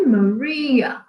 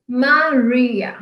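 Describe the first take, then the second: First: Maria with English r and stress on ri, ma-REE-a; English pronunciation. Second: Maria said the Portuguese way, MA-ri-a with a tapped r; plain Brazilian Maria; Portuguese pronunciation. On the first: Teacher showing English Maria to pupils. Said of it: "em inglês a pronúncia é". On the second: Teacher showing the Portuguese name to pupils. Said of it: "em português". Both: Shown as a demonstration.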